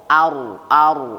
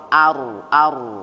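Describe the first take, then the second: The two takes are said the same way.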